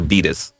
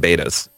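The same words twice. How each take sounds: First: It is said in a British accent. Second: It is said in an American accent. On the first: "as you say" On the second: "it's just my whole American thing"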